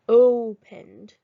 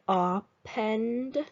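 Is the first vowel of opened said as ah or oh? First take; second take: oh; ah. First: The first vowel sounds like oh. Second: The first vowel sounds like ah. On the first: The speaker calls it right. "the other way. That's a word I know" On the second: The speaker calls it wrong. "that doesn't sound quite right"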